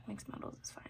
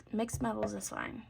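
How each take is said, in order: First: Soft unvoiced whisper. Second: Said in the usual way. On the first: Real, not acted. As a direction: breathe the words out quietly. Repeats the line as a whisper.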